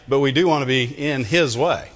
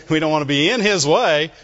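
First: The word "do" hit hard, rest falling away; stress on DO. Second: The word "in" leaned on, louder, line falling after it; stress on IN. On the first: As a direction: punch "do" to insist. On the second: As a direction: push "in" as in getting in the way. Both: Shown as a demonstration. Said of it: "what you put the emphasis on which word".

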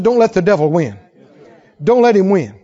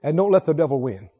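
First: Don't let the devil win, louder this time; repeated louder. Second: Said in the usual way. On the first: Acted. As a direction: say it again with force. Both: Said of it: "I said".

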